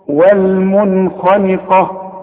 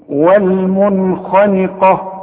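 Both takes have the same delivery.

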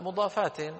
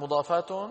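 First: The word ends with -in nunation. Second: The word ends with -un nunation. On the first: The speaker calls it right. "لأنه حالة كونها مضافات، هذه حال" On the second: The speaker calls it wrong. "لا"

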